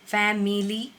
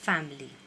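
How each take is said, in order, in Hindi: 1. बीच का 'i' स्वर बोला जाता है। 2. बीच का 'i' स्वर मौन रहता है। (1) "नहीं करना है" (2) "I is silent over here"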